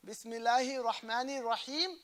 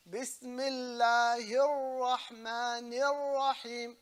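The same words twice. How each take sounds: First: "Bismillahir Rahmanir Rahim" with short single l and r; undoubled consonants in "Bismillahir Rahmanir Rahim"; missing shadda. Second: Slow "Bismillahir Rahmanir Rahim", l and r held long; deliberate recitation of "Bismillahir Rahmanir Rahim" with long shaddas; shadda pronounced. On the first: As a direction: say "Bismillahir Rahmanir Rahim" straight through, nothing held. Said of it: "is not valid". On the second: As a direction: stretch every doubled letter in "Bismillahir Rahmanir Rahim". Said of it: "shadda has to be pronounced". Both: Shown as a demonstration.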